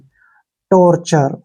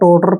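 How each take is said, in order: First: The middle consonant is a ch sound. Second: The middle consonant is a plain t sound. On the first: The speaker calls it right. "तो वहां पर च का उच्चारण निकलता है" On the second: The speaker calls it wrong. "इसको अक्सर टोटर पढ़ते हैं जो कि गलत है"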